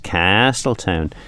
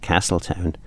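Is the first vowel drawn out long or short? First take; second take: long; short. First: The first vowel is drawn out very long. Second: The first vowel is said short and plain. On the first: The speaker calls it right. "you really have to really emphasise the A" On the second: The speaker calls it wrong. "not Castletown"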